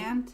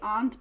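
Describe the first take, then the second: First: It is said in an American accent. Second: It is said in a non-American accent. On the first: "in my American accent we say aunt" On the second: "most people would say aunt"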